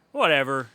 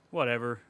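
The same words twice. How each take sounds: First: Louder, emphatic brush-off; loud dismissive. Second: Said in the usual way. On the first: Real, not acted. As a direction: shut the topic down loudly. Dismissing topic, said twice.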